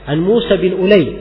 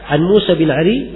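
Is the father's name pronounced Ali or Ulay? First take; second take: Ulay; Ali. First: The last name is pronounced Ulay. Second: The last name is pronounced Ali. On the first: The speaker calls it right. "dibaca Ulay" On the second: The speaker calls it wrong. "bukan Ali bacanya"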